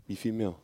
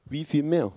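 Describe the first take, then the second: First: Said in the usual way. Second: Raised high and loud, ringing out; preacher's loud rhetorical outcry; emphatic cry. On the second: Real, not acted. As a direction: throw "Wie viel mehr?" out to the room, pitch up and loud on "mehr". Preacher repeats Jesus' question.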